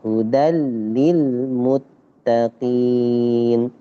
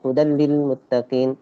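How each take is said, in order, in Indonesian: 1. Bunyi L ganda ditahan selama dua ketukan. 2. Bunyi L ganda ditahan selama satu ketukan pendek. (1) "tapi dua harokat hentakannya" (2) "Kalau satu harokat"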